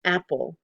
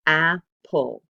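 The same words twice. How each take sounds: First: Said in the usual way. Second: Apple said much louder, two punched beats; syllable by syllable. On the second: Shown as a demonstration. Teacher loudly sounding out apple for the class. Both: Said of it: "we hear the apple".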